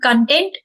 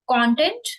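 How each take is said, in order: First: The stress is on the second syllable. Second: The stress is on the first syllable. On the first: It means happy and satisfied. "Then content is happy and satisfied" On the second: It means material that people consume. "Content is which we consume"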